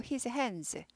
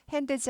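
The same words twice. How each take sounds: First: "his hands" with the D swallowed, like 핸스; nearly silent D in "his hands"; D barely heard. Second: "hands" with a clear extra 드, like 핸드스; over-pronounced D in "hands"; D fully sounded. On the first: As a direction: say "his hands" with hardly any D. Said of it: "hands 하지 않고". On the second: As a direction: say "hands" the wrong way, D voiced as its own syllable. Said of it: "하지 않고". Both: Shown as a demonstration.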